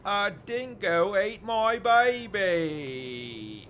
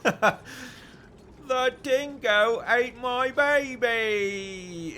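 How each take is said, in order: First: Slow, high, loud hammed-up Australian accent; over-the-top Aussie impression, slow and loud. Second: Hammed-up Australian accent, high and loud, breaking into laughter; mock Australian accent with laughter leaking in; laughing Australian accent. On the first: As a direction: stretch it out in a big mock Australian accent. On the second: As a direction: drag out the Aussie line while cracking up. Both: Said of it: "do your best Australian accent".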